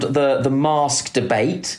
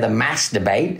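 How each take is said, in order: First: Mask is said in a British accent. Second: Mask is said in an American accent.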